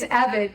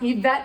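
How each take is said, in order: First: The name is said plainly, not the French way. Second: The name is said the French way. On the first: The speaker calls it right. "it's not fancy" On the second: The speaker calls it wrong. "sounds very French and fancy"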